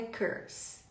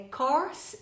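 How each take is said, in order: First: Slow "curse" with er as in her; "curse" contrasted against course, vowel as in her; curse, central vowel. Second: Slow "course" with aw as in or; "course" contrasted against curse, vowel wide open. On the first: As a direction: set "curse" apart with a closer er vowel. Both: Shown as a demonstration. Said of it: "É course ou é curse?".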